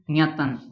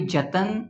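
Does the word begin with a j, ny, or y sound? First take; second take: ny; j. First: The word begins with an ny sound. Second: The word begins with a j sound. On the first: The speaker calls it right. "it will be nyatan" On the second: The speaker calls it wrong. "it will not be jatan"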